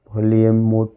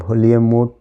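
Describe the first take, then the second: No difference in how they are said.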